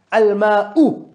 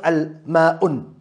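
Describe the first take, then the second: First: Al-ma'u ending on plain u; al-ma'u, no nunation. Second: Al-ma'un ending with un; wrong form al-ma'un. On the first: Teacher contrasting right al-ma'u with wrong form. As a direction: say Al-ma'u with no n at the end. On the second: Teacher showing the wrong al-ma'un slowly. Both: Shown as a demonstration. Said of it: "and not al-ma'un".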